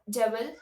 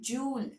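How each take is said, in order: First: A V-like sound follows the first vowel. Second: A Y-like glide follows the first vowel. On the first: The speaker calls it wrong. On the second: The speaker calls it right.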